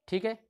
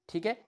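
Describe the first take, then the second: No difference in how they are said.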